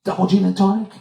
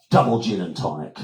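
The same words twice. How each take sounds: First: "Double gin and tonic" pitched high, rising; questioning. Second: Said in the usual way. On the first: Retold or imitated. Offering a drink at the bar, questioning.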